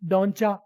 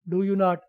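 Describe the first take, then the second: First: The words are merged into one short word. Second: Each word is said separately and fully.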